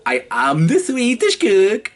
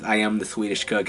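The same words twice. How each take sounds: First: Higher, louder mock Swedish chef accent. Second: Said in the usual way. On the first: Shown as a demonstration. Actor shows his Swedish chef line, in a Swedish accent. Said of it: "I had to do a Swedish accent". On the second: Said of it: "one of my lines was".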